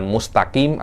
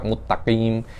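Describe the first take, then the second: First: Said in the usual way. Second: "mustaqim" said as "muttaqim", s swallowed into a doubled t; s merged into t. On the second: Shown as a demonstration. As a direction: drop the s of "mustaqim" and hold the t. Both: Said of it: "Sinnya Anda masukkan ke ta".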